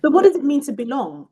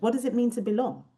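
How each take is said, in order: First: Louder, higher, pressing the question hard; loud emphatic challenge. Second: Said in the usual way. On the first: Real, not acted. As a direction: throw the question out to the room. Emphatic question opening discussion.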